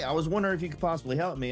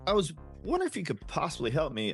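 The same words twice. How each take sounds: First: It is said fast with flat tone. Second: It is said slowly with varied tone. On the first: The caller sounds rushed and scripted. The speaker calls it wrong. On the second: The caller sounds relaxed and natural. The speaker calls it right.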